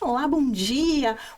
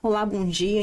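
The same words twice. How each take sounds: First: It sounds loud, bright and smiling. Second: It sounds flat, formal and serious.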